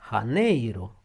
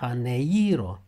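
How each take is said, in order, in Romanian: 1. Accentul este pe silaba cu E. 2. Accentul nu este pe silaba cu E. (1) "cu accentul pe E" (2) "greșit"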